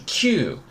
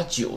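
First: "Q" as kyū, with a k onset; correct Japanese nine. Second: "九" misread as jū, with a soft j onset; students' mistaken reading. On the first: Shown as a demonstration. Teacher separating nine from ten, correct pronunciation. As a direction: say "Q" as Japanese kyū, long vowel. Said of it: "九是Q". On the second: Retold or imitated. Teacher quoting students who confuse nine, mistaken pronunciation. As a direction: say "九" like Japanese ten, jū. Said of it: "不要弄混".

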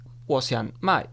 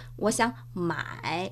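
First: 买 said with a falling tone, meaning sell; fourth tone. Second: Slow, soft 我想买 with 买 dipping low; teacher's low, quiet model of third-tone 买. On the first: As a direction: let 买 fall without any rise. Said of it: "yo quiero vender". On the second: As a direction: let 买 sink and rise back, spoken slowly. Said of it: "de tercer tono". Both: Shown as a demonstration.

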